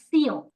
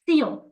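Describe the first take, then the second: The two takes are said the same way.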